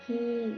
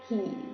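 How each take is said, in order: First: The word is said with a falling tone. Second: The word is said with a low tone. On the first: "ขออีขีขี่ไม่โทขี้" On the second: "ขออีขีขี่ไม่เอกขี่"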